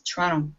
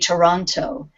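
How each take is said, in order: First: The second T is left out. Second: The second T is clearly pronounced. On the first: This is how locals say it. "We kind of leave out the T here" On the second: This is not how locals say it. "Canadians don't say Toronto"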